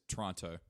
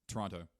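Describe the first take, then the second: No difference in how they are said.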